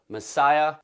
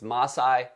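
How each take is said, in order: First: The name sounds like the word messiah. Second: The name sounds like ma-sigh, not messiah. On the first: The speaker calls it wrong. "That's not how you say it" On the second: The speaker calls it right. "It's Masai Mara"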